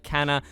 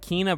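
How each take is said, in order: First: The first vowel is a short 'eh' sound. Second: The first vowel is a long 'ee' sound. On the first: The speaker calls it wrong. "I've always called it Kenna" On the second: The speaker calls it right. "I do believe that is the right pronunciation"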